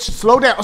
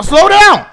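First: Said in the usual way. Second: Slow down yelled high and loud; frantic yell at the game; urgent shout. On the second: Real, not acted. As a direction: bark it at the screen in a panic.

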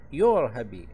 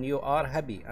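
First: "you're happy" said as one clipped word, a bit louder; contracted form. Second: Said in the usual way. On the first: Shown as a demonstration. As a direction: run you and are together into "you're". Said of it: "نختصرها". (نطق you're كلمة واحدة مختصرة) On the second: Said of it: "نختصرها you're happy".

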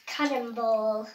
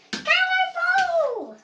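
First: Said in the usual way. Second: Long high shouted cannonball; cannonball yell. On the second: Pretend. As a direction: belt it out as you jump. Kid voicing doll jumping in.

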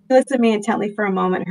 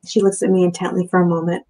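First: Hurried read, voice tight with tears; rereading the line while fighting tears; choked up. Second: Said in the usual way. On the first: Real, not acted. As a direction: push through the tears quickly. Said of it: "I'm so getting choked up". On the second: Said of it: "Damn it. I'm so getting choked up".

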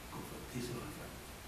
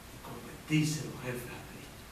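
First: Breathy whisper, almost voiceless; whispered repeat. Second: Said in the usual way. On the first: Shown as a demonstration. Preacher repeats it to the congregation in a hushed whisper. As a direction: whisper "Convertirse los jefes a Cristo" so it sinks in. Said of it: "repeated as a whisper". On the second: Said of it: "repeats it quietly".

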